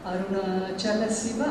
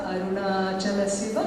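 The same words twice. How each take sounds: The two takes are said the same way.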